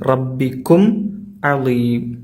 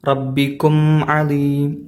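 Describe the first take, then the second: First: The m sound is pronounced clearly and separately. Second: The m sound is blended into the next word. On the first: The speaker calls it right. "മീമിനെയാണ് നമ്മൾ വ്യക്തമായി ഉച്ചരിക്കേണ്ടത്" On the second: The speaker calls it wrong. "കൂട്ടി ഓതിയാൽ ... അത് തെറ്റാണ്"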